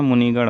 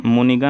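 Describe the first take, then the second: First: मुनिगण ending in retroflex "ṇ"; retroflex final ṇ. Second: मुनिगण ending in plain dental "n"; dental final n. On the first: Teacher giving the correct form, मुनिगण with retroflex ṇ. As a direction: curl the tongue back on the last sound of मुनिगण. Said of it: "मुनिगण होता है". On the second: Teacher showing the wrong form, मुनिगण with dental n. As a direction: say मुनिगण as "munigan", no retroflex. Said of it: "नहीं होता". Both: Shown as a demonstration.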